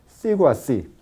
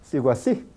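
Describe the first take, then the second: First: Spoken slowly, the o kept as a full vowel. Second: Spoken quickly, the o gliding into a u sound. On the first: "en el habla lenta" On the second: "En el habla rápida"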